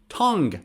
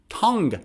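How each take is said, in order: The two takes are said the same way.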